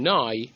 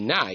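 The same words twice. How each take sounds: First: The vowel is a full, long ah. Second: The vowel is a short, flat a. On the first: The speaker calls it right. "a proper kamatz, like ah" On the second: The speaker calls it wrong. "It sounds like a patach"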